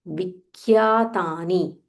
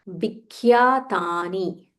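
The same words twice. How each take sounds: No difference in how they are said.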